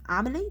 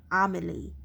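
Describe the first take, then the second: First: Armley? asked higher, rising at the end; double-check the name Armley?; puzzled rising query. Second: Said in the usual way. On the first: Shown as a demonstration. Reader doubting the place name, rising question.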